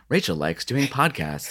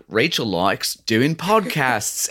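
First: Said in the usual way. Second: Slow, drawn-out Australian accent; Australian accent, slow and charming. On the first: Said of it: "when it's just like". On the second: Shown as a demonstration. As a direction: say it like an Aussie on the show. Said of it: "you do a good Australian accent".

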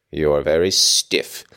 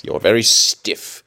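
First: Chuckling through the words; laughing. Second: Very stiff said slow and pointed; slow emphatic. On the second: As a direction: lean on very, slowly. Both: Shown as a demonstration.

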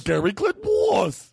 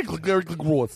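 First: "Glengarry Glen Ross" very high and slow; high, dragged-out "Glengarry Glen Ross"; insistent garbled title. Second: "Glengarry" slurred as "glig-glary"; "Glengarry Glen Ross" with the n's swallowed; garbled title. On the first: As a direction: pitch "Glengarry Glen Ross" way up, slurring "Ross" to "woss". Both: Acted. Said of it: "what's what I say".

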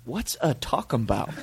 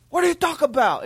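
First: Feigned confusion. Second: High, exasperated mock yell; indignant driver. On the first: Retold or imitated. Jeremy playing dumb with the angry driver, feigned confusion. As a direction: ask as if "talking about" were one word. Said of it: "we act like it's one word". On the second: Angry driver baffled by Jeremy's question, indignant mock yell. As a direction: blurt it out like an outraged motorist. Driver's outraged reply, retold.

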